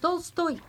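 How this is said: The name is said with French pronunciation. The speaker calls it wrong. "Vous dites Tolstoy, mais non"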